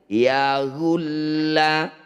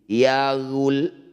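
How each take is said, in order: First: The word ends with a pronounced vowel. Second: The word ends on a stressed consonant. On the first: The reading continues without stopping. "Jadi awalnya" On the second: The reading stops at this word. "Ketika dibaca berhenti"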